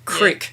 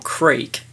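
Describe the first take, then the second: First: The vowel is a short 'i' sound. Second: The vowel is a long 'ee' sound.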